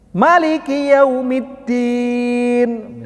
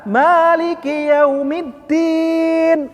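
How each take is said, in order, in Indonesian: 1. Vokal pertama pada maliki dibaca pendek. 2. Vokal pertama pada maliki dibaca panjang. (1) "Mahnya pendek, gak pakai mat tabi'i" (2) "Manya panjang karena itu mat tabi'i menurut Imam Hafs an Asim"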